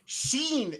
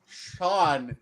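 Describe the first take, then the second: First: The name is said with an 'ee' vowel. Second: The name is said with an 'aw' vowel. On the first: The speaker calls it wrong. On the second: The speaker calls it right.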